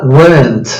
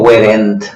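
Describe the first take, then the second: First: Weren't said as one quick blended syllable, r-coloured vowel; weren't clipped and blended; correct weren't. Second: Weren't spelled out as were-en-t with a full middle vowel; weren't stretched into two clear syllables; wrong weren't. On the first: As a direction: model weren't smoothly, vowel running into n. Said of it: "Ven acá". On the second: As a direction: overpronounce weren't syllable by syllable to show the error. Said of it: "No digo". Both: Shown as a demonstration.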